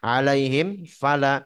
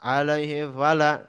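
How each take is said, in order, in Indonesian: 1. Bunyi m di akhir jelas diucapkan. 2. Bunyi m di akhir hilang atau tidak jelas. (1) "Pas harusnya begitu" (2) "kalau kita nggak jelaskan"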